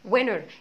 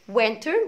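First: The t after the n is dropped. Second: The t after the n is clearly pronounced. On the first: "التي لما بيبقى قبلها حرف الان يعني دايما التي لا تنطق في الامريكان اكسنت" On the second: "لا اما اقول عليه وينتر وينتر وبرده هعلق الار"

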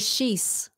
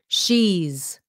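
First: The word ends with a hissing s sound. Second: The word ends with a buzzing z sound. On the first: The speaker calls it wrong. "Don't say she's" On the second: The speaker calls it right. "Cái chữ z ở sau nha quý vị"

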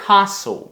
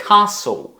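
No difference in how they are said.

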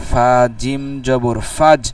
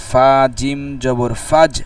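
Both takes have the same delivery.

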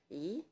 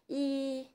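First: The syllable is said on a rising tone. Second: The syllable is said on a high level tone. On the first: This is the changed form before a fourth-tone syllable. "biến thành thanh hai, đọc là ý" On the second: This is the word's basic form. "từ y thanh một, bản chất là thanh một"

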